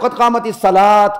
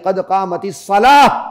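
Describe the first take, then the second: First: The last word ends with a t sound. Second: The last word ends with an h sound. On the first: The speaker calls it wrong. "यार कद कामतिस सलात मत कहो" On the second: The speaker calls it right. "इस पर आप जब वक्फ करते हैं, ये हा पड़ जाती है"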